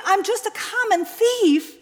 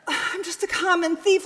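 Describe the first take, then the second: First: High, loud, falling in defeat; despairing confession. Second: Tearful, rising in disbelief; anguished confession. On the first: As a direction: let it sink with finality. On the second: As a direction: plead it like a question. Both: Acted.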